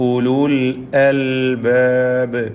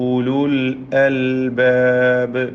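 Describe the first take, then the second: The two takes are said the same way.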